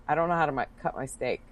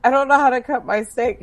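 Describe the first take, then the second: First: Imitating a friend's quiet, sheepish admission; embarrassed confession. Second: High, louder imitation of a friend; insistent repeated confession. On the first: Friend confessing at dinner that she can't cut steak, sheepishly. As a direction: drop the voice as if ashamed to admit it. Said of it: "I'm really embarrassed to say this". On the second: Friend repeating her confession to stunned dinner companion, insistently. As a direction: repeat it up high so it can't be missed.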